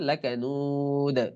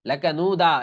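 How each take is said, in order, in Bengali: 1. শব্দটি কোনো স্বরধ্বনি ছাড়া একটি ঝাঁকুনি দেওয়া 'd' দিয়ে শেষ হয়। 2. শব্দটি একটি পূর্ণ যোগ করা 'a' স্বরধ্বনি দিয়ে শেষ হয়। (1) "জবর উচ্চারণ হবে না" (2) "এরকম পড়া যাবে না"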